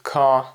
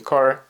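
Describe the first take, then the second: First: The r after the vowel is not pronounced. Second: The r after the vowel is clearly pronounced. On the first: "where the Brits say car" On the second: "Americans will say car"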